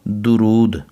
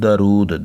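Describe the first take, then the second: First: The first syllable has a 'u' vowel. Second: The first syllable has an 'a' vowel. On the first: The speaker calls it right. "ज़बर नहीं है बल्कि पेश है" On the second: The speaker calls it wrong. "कई बच्चे से पढ़ते हैं दरूद, दाल के ऊपर ज़बर पढ़ते हैं"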